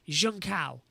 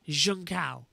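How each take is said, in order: No difference in how they are said.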